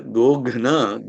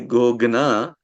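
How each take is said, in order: First: The consonant before 'na' is an aspirated gh. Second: The consonant before 'na' is a plain g. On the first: It means to kill or vanquish. The speaker calls it right. "like you have the word Shatrughna" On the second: It sounds like a word related to fire, changing the meaning. The speaker calls it wrong. "now it is becoming that Gna is saying Agni kind of word"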